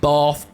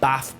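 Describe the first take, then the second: First: It has a long southern vowel. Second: It has a short northern vowel.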